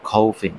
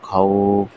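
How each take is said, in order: First: The word ends with an added 'in' sound. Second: The word ends abruptly on the 'f' sound. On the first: The reading continues without stopping. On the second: The reader stops at this word.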